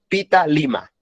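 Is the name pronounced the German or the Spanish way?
German. The name is said with German sounds, ending in 'a'. "En alemán el señor sería Pita Lima"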